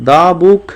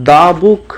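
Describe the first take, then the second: No difference in how they are said.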